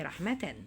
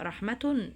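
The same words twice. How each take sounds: First: رحمة ending in "-atan"; corrected case ending. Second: رحمة ending in "-atun"; wrong case ending. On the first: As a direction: say رحمة with accusative tanween, "rahmatan". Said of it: "لا، هي رحمة". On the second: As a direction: say رحمة with nominative tanween, "rahmatun". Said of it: "صوب خطأ الضبط". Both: Shown as a demonstration.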